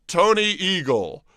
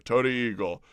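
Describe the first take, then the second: First: Slow, drawn-out showman intro of "Tony Eagle"; host announcing "Tony Eagle" slowly like a star; grand announcement. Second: Said in the usual way. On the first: Shown as a demonstration. Host introducing a famous skateboarder, slow grand announcement.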